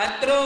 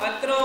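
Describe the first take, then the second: The two takes are said the same way.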